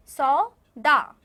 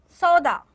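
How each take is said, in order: First: सौदा very slow and loud, split in two; teacher breaking सौदा into long syllables. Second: Said in the usual way. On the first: Shown as a demonstration. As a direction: say सौ, pause, then दा, both held. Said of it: "आप मेरे पीछे बोलेंगे". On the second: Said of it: "एक बार मैं बोलूँगी".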